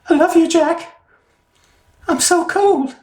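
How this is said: It is said in a put-on character voice. "you're not even using your normal voice"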